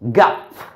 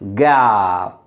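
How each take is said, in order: First: The final consonant has a puff of air. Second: The final consonant has no puff of air. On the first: The speaker calls it wrong. "not gap" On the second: The speaker calls it right. "we are not supposed to go through aspiration"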